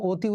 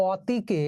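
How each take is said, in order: First: "অতি" said oti, closed o; actual pronunciation. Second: "অতিকে" slowly, opening on aw; as spelt. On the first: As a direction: say "অতি" with o as the first vowel. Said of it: "উচ্চারণ করলাম". ("অতি" উচ্চারণ ওতি) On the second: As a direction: say "অতিকে" slowly with an open first vowel. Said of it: "আমরা অতি উচ্চারণ করলাম". ("অতিকে" ধীরে, খোলা অ দিয়ে) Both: Shown as a demonstration.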